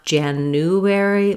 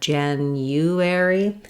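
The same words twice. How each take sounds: First: The U is said without a Y sound. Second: A Y sound comes before the U. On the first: The speaker calls it wrong. "not January" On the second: The speaker calls it right. "there is a hidden Y sound before the U"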